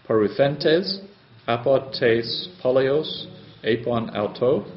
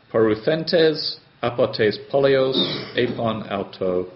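First: Slowly, word by word, each Greek word spelled out; slow careful reading. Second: Said in the usual way. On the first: Shown as a demonstration. Teacher to class, slow careful Greek reading. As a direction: read it slowly for the students. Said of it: "Greek sentence reread slowly for students". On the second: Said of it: "Greek sentence read at normal pace".

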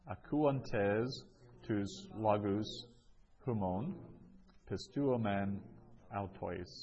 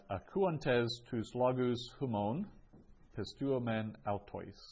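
First: Measured, with clear pauses between phrases; word-by-word reading. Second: Said in the usual way. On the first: Shown as a demonstration. Teacher repeats a Greek sentence for students, word by word. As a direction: break the Greek into separate chunks for learners.

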